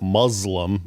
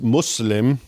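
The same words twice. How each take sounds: First: The word is said with an American pronunciation. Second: The word is said with its Arabic pronunciation. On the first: It names someone who is oppressed. The speaker calls it wrong. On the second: It names someone who has submitted. The speaker calls it right.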